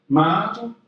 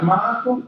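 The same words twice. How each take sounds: First: Mock drawn-out "Michael?" with every syllable stretched; lightly imitating the mayor stretching out "Michael?"; stretched-out name. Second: Rising, drawn-out "Michael?" with each syllable pulled long; lightly imitating the mayor's long rising "Michael?"; stretched-out name. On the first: Mayor greeting the speaker, a mild mock stretched "Michael?". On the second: Mayor calling the speaker's name, mildly mocked and stretched. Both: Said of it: "make your name fourteen syllables".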